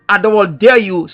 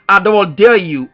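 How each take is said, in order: Both takes have the same delivery.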